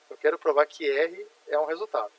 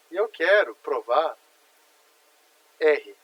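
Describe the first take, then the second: First: Said in the usual way. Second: Slow and louder, leaning on "quero provar" and "R"; teacher stressing the key point; slow emphatic statement. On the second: Shown as a demonstration. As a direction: spell out the goal deliberately, stressing "R". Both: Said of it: "Olha só que interessante isso daqui".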